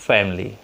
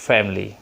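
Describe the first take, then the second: First: It is pronounced with a native English accent. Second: It is pronounced with a native English accent.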